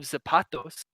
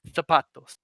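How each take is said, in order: First: The first sound is a plain s sound. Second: The first sound is a th sound. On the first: This is how it is said in Latin America. "So instead of zapatos" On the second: This is how it is said in Spain. "it would be zapatos. ... put a th sound"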